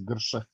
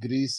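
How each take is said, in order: First: The name is said in two syllables, like Gersha. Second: The name is said as one syllable, like Greece. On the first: The speaker calls it right. "it's Gersha" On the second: The speaker calls it wrong. "it's not Greece"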